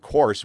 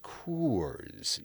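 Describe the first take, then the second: First: The vowel in the name is short, like 'course'. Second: The vowel in the name is drawn out long. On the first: The speaker calls it wrong. "if you mispronounce it by going course" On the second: The speaker calls it right. "you got to get the long, you got to get the two O's in"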